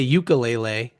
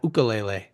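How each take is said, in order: First: It begins with a 'you' sound. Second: It begins with an 'oo' sound. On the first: This is how mainland Americans usually say it. "why do we say" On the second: This is the Hawaiian way of saying it. "instead of"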